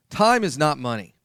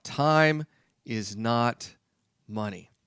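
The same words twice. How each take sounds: First: TIME hit and held, falling; stress on TIME. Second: Very slow, word by word, fading on "money"; slow, spaced-out emphasis. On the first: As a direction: open by leaning hard on "Time". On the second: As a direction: drag each word out to drive it home. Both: Shown as a demonstration. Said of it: "I'll tell you that right now".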